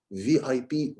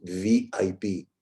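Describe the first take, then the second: First: Lightly voiced from the mouth; weak mouth voice. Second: Low and slow from the throat; amplified throat voice. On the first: Coach repeating the weak mouth take. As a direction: say it weakly, from the mouth only. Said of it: "it sounds weak". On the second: Coach repeating the amplified throat take. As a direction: bring it down into the throat, confidently. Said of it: "it sounds amplified". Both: Shown as a demonstration.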